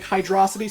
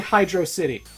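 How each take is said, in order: First: It is run together as one word. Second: It is said as two separate words. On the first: "sort of like velocity" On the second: "I say Hydro City"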